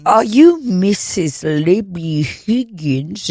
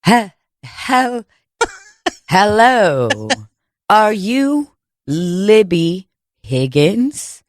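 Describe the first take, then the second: First: Put-on slow, affected high-class accent. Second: Halting start, then very slow, drawn-out words; posh Manhattan font impersonation. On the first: Would-be process server asking for Libby Higgins, fake fancy accent. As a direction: overdo a fancy Manhattan-font accent, word by word. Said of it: "you're doing a fucking accent". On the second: Acted. Would-be Manhattan font serving papers, slow affected voice. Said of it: "trying to be a Manhattan font".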